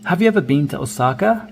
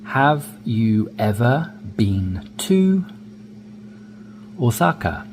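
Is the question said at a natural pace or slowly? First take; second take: natural pace; slowly. First: The question is spoken at a natural, connected pace. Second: The question is spoken slowly and carefully. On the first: "more naturally"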